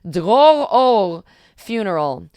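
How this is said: The name is said in an Israeli accent.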